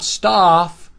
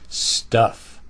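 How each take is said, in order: First: The vowel is not a short, low 'uh'. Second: The vowel is a short, low 'uh'. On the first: The speaker calls it wrong. "It's not stuff, mm-mm" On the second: The speaker calls it right. "is short and low, uh"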